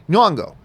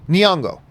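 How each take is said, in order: No difference in how they are said.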